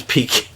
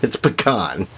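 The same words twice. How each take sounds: First: Pecan with a long 'ee' in the first syllable; pecan as PEE-can. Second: Pecan with an 'ah' in the stressed last syllable; pecan as puh-KAHN. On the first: Rejecting the chamber pot pronunciation, pecan as PEE-can. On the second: Correcting to what he will always call it, pecan as puh-KAHN. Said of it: "I will always call it pecan". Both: Shown as a demonstration.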